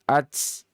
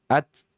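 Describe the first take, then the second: First: The final t is released with a strong echo. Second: The final t is released with a faint echo. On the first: The speaker calls it wrong. "Jangan dibaca satu harokat" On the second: The speaker calls it right. "biasa saja, tipis saja"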